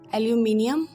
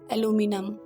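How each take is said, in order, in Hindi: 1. इसे ब्रिटिश लहजे में बोला गया है। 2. इसे अमेरिकी लहजे में बोला गया है। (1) "the British speakers pronounce like aluminium" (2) "in American English they say aluminum"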